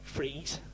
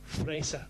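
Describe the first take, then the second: First: The name is said in a non-German way. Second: The name is said in the German way. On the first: The speaker calls it wrong. "not Fries" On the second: The speaker calls it right. "That's how you pronounce the name in Germany"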